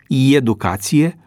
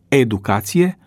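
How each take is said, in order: First: The word begins with a ye sound. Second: The word begins with a plain e sound. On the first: The speaker calls it wrong. "este incorrectă rostirea" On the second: The speaker calls it right. "Corectă este rostirea"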